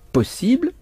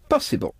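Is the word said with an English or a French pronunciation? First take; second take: French; English. First: It is said with a French pronunciation. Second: It is said with an English pronunciation.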